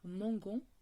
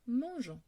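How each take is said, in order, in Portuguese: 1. O g é duro, como em go. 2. O g é suave, como o som de j. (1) "ao invés de ser mangon" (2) "vira-se mangeons"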